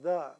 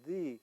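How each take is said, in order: First: The vowel is short and reduced, like 'thuh'. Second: The vowel is long, like 'thee'. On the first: "but we pronounce it as the" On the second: "the general rule of an open syllable, we would pronounce it as the"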